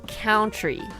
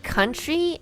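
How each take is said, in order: First: The first vowel sounds like the one in 'out'. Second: The first vowel sounds like the one in 'up'. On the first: The speaker calls it wrong. "like count" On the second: The speaker calls it right. "He was saying country as"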